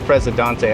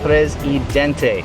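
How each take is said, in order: First: It is said with a French-sounding pronunciation. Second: It is said without a French-sounding pronunciation. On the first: The speaker calls it wrong. "I always say Presidente, I don't know why. Probably the Canadian French part" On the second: The speaker calls it right. "but it is Presidente"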